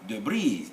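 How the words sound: It is said the American way, stress shifted.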